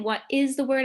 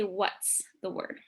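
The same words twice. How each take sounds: First: Said in the usual way. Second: "What's" said as one quick blended syllable, softer; contracted what's. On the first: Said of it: "instead of saying". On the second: Shown as a demonstration. Teacher showing the class the short form, "What's" run together. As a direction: squeeze "What is" into "What's". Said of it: "I'm going to say".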